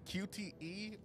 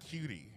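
First: It is spelled out letter by letter. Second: It is said as one word, cutie. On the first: The speaker calls it right. "Am I saying that right?" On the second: The speaker calls it wrong. "Is it cutie?"

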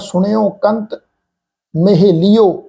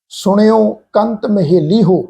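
First: The h is dropped and the ending merges into o. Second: The ending is a separate syllable with a clear h. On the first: The speaker calls it wrong. "ਪਰ ਇਹ ਅਸ਼ੁੱਧ ਉਚਾਰਨ ਆ" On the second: The speaker calls it right. "ਹੋ ਕਰਕੇ pronounce ਕਰੋ ਇਹਨੂੰ"

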